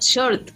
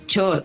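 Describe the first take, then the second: First: The word begins with a soft sh sound. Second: The word begins with a hard ch sound. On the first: The speaker calls it right. "en Venezuela no decimos short" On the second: The speaker calls it wrong. "decimos short"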